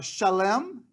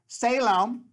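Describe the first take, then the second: First: The name begins with an sh sound. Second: The name begins with a plain s sound. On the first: The speaker calls it right. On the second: The speaker calls it wrong.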